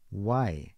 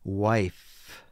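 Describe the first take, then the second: First: The word ends without any f sound. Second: The word ends with a clear f sound. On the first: The speaker calls it wrong. "they usually just end up saying Y" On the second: The speaker calls it right. "with an F sound"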